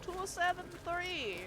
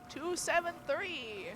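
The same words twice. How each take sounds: First: Vampire voice. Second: Slow, higher vampire count; lightly voiced Count Dracula. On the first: Pretend. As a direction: count it out like Dracula. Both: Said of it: "I'm doing my vampire voice".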